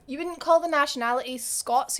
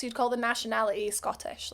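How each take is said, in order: First: Said in the usual way. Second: Scottish said as the correct word, a little softer; correcting chat, landing on Scottish; stress on Scottish. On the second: Shown as a demonstration. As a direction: settle on Scottish as the right term. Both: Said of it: "Scots said ish".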